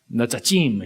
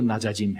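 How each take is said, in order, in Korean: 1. 히브리식 발음이에요. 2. 한국식 발음이에요. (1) "히브리식으로 해도 좋고" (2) "한국식으로 낮아짐 해도 좋고"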